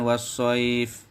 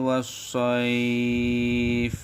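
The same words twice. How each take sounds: First: The vowel before the final consonant is kept short. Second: The vowel before the final consonant is held long. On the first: The speaker calls it wrong. "Bukan was-shaif gitu" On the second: The speaker calls it right. "tapi dipanjangkan"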